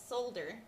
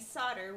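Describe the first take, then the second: First: It is said with an English pronunciation. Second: It is said with an American pronunciation. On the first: "which is how we English say it" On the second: "Americans insist on saying solder"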